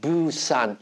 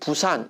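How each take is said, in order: First: The word begins with a voiced b. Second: The word begins with a plain Korean b. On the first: A foreigner reads the new B spelling. "B는 영어의 유성음이에요... 부산 이렇게 발음해야 되는" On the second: It is the usual Korean way of saying it. "우리가 보통 이야기하는 부산 이렇게 얘기할 때의 발음"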